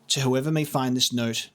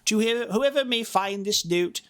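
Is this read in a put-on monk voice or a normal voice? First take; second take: normal voice; monk voice. First: It is read in the speaker's ordinary voice. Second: It is read in a put-on old monk voice.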